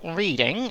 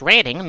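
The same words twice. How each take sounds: First: It sounds just like the word 'reading'. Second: It does not sound like the word 'reading'. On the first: The speaker calls it wrong. "not Reading, as uh, some uh, you Northerners might" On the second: The speaker calls it right. "is pronounced Reading"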